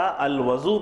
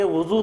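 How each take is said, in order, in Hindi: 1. पहला स्वर खुला 'a' जैसा है। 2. पहला स्वर गोल 'u' जैसा है। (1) "अगर वो के ऊपर फ़तह आएगा" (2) "वज़ू को वो के ऊपर ज़म्मा देंगे"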